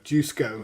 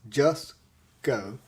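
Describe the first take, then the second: First: The first syllable sounds like 'juice'. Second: The first syllable sounds like 'just'. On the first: The speaker calls it wrong. "How we say it. ... how we have said it" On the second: The speaker calls it right. "Just go, not J O O O"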